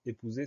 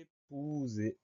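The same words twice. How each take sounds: First: Said in the usual way. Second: EPOUSER drawn out very slowly, higher and softer; syllable by syllable. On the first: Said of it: "c'est un mot qui est". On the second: Shown as a demonstration. Teacher dictates the next word to pupils, slowly stretched syllables. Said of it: "Première syllabe".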